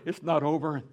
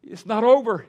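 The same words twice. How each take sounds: First: Said in the usual way. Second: Loud and high, urging her to hold on; insistent reassurance. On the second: Retold or imitated. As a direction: press the words hard on the grieving mother. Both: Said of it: "And I said, "Penny".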